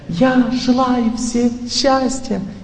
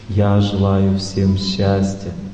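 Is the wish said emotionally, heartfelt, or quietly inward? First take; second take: emotional; heartfelt. First: It is said with surface emotion. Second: It is said warmly, from the heart. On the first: The wish stays on the surface and does not overcome fate. "эмоции – это поверхностный звук" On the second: The speaker gives away happiness but cannot overcome fate. "от сердца"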